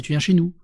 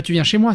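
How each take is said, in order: First: "chez nous" picked out as the correct wording; contrastive stress on NOUS. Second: "moi" lifted at the end as the rejected word; contrastive stress on MOI. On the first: Reader correcting the invitation's wording, contrastive stress on "chez nous". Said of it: "c'est tu viens chez nous". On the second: Reader correcting the invitation's wording, contrastive stress on "moi". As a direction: set up "moi" for correction with a rise. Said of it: "C'est pas tu viens chez moi". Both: Shown as a demonstration.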